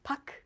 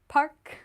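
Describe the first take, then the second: First: The name has no R sound in it. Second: The name has an English R sound.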